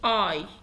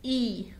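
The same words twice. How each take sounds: First: The letter name is said the English way. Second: The letter name is said the German way. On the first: "وفي الانجليش اي" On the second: "ولكن هنا بنقول عليه اي"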